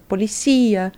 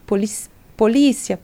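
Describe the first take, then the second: First: Policia stressed on cí, Spanish policía. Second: Polícia with stress on lí, Portuguese style; polícia, Brazilian stress on lí. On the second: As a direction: say polícia stressing the second syllable. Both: Shown as a demonstration.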